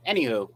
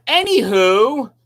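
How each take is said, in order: First: Said in the usual way. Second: Anywho stretched slow, louder, rising at the end; drawn-out Anywho. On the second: Shown as a demonstration. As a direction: drag out Anywho brightly to change the subject. Repeats word, stretched and loud.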